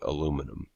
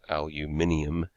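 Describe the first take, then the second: First: It is said the American way, four syllables. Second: It is said the European way, five syllables.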